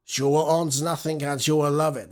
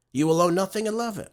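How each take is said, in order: First: Klaus Schwab in a put-on German accent; German-accented quote, lightly hammed; mock German accent. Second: Said in the usual way. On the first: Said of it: "That's in his German voice". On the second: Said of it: "What did he say?".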